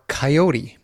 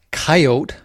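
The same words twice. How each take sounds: First: Coyote as kai-OH-tee; three-syllable coyote. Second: Coyote as KAI-oht, final e silent; two-syllable coyote. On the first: Host offers the other way, coyote in three syllables. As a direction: end coyote on a clear "tee". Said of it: "it could be pronounced". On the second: Host shows listeners the ways of pronouncing it, two-syllable coyote. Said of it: "it could be pronounced coyote". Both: Shown as a demonstration.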